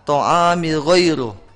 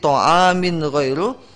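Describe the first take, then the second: First: The n is blended away into the next word. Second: The n is pronounced clearly before the next word. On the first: The speaker calls it wrong. "dibaca ta'amil ghairu" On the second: The speaker calls it right.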